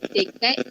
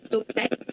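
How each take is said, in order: First: It is pronounced in standard Malay. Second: It is pronounced in Negeri Sembilan dialect. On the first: "Untuk bahasa Melayu standard" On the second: "Untuk dialek Negeri Sembilan"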